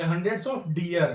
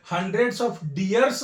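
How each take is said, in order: First: Slow and lower, deer without s; correct unchanged form. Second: Slow, with an s added on deers; wrong plural form. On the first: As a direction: end deer on r, no plural s. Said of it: "hundreds of deers नहीं लिखेंगे". (deer, अंत में बिना स) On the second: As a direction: sound the final s of deers. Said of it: "नहीं लिखेंगे". (deers के अंत में स) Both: Shown as a demonstration.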